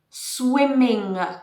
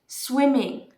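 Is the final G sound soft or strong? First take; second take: strong; soft. First: The final G sound is strong and heavy. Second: The final G sound is soft and light. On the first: The speaker calls it wrong. "swimming with a strong G" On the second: The speaker calls it right. "The G is very soft"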